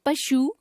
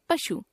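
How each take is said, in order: First: पशु ending on long "oo"; mispronounced final vowel. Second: Said in the usual way. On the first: Shown as a demonstration. Teacher showing a common error, पशु with long final u. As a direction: stretch the end of पशु, "pa-shoo". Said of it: "अशुद्ध". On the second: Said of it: "शुद्ध".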